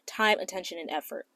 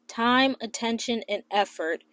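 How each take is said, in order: First: It is said at a normal pace. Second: It is said more slowly.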